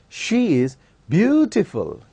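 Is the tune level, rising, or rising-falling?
rising. The pitch rises through the sentence. The beauty is being admired. "we use rising tune"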